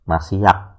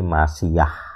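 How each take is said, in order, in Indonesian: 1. Kata ini berakhir dengan bunyi seperti k yang keras. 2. Kata ini berakhir dengan bunyi h yang lembut dan terbuka. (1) "dibacanya kayak k" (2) "lebih suka membaca sebagai H"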